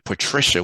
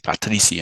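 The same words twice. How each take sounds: First: The name has an English pronunciation. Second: The name has a Portuguese pronunciation. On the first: "what we say in English" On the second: "they say Patricia in Portuguese"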